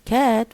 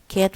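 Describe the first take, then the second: First: The pitch rises across the word. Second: The pitch stays level across the word. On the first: "was rising intonation" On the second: "was level"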